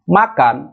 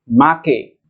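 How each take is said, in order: First: The word ends with an an sound. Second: The word ends with an e vowel. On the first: "kata yang berakhiran an" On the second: "akan dirubah menjadi make"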